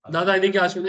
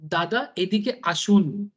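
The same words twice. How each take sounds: First: Begrudging version. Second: Slow, honeyed Bengali "दादा, एदी के आशुन"; sweet Bengali invite. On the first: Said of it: "ऐसे अंदर ही तो जलन". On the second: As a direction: coax him in gently, drawing out "एदी के आशुन". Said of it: "कितना प्यार से बोल रहे हैं". (बहुत मिठास से, धीरे-धीरे बंगाली में बुलाना) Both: Retold or imitated.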